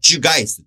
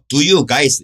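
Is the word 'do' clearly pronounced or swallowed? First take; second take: Swallowed; Clear. First: The words run together and 'do' is barely heard. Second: The word 'do' is pronounced clearly and fully.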